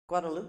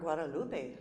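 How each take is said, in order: First: The name ends with a plain 'oop' sound. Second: The name ends with an 'oo-pay' sound. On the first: "like loop" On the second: "like Olay"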